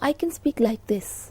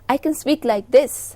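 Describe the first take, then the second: First: It is spoken quietly, at low volume. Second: It is spoken loudly, at higher volume. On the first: "My tone is low" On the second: "My tone is higher"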